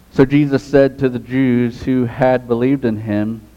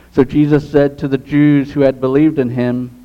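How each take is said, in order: Both takes have the same delivery.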